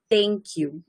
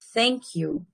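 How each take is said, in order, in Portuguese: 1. Começa com um som de t simples. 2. Começa com um som de th, com a língua entre os dentes. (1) "não é o som de T, não é thank you" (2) "Ele é thank you. E você coloca a língua aqui"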